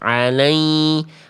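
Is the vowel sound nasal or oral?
nasal. The vowel is pushed through the nose. The speaker calls it wrong. "bunda masuk hidung"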